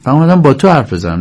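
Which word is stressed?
تو. The stress falls on the word for you. I came to talk with you, not with anyone else. The speaker calls it wrong. "ولی بازیگر جوری اجرا میکنه، ... نه با کس دیگه"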